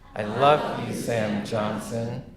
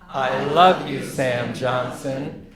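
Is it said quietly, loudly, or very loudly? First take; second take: quietly; loudly. First: It is said at the quietest volume. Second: It is said louder than before.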